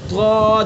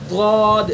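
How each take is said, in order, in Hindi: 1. इसकी शुरुआत एक भारी, emphatic व्यंजन से होती है। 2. इसकी शुरुआत एक भारी, emphatic व्यंजन से होती है।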